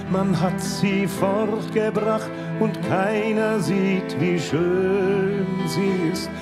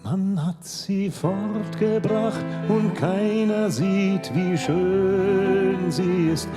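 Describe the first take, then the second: No difference in how they are said.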